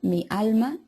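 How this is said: It has a clear l sound in alma.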